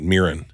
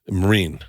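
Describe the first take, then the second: First: The name is said like 'Mirren'. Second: The name is said like 'Marine'. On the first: The speaker calls it wrong. "everyone pronounces it Mirren" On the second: The speaker calls it right. "That's how you say it"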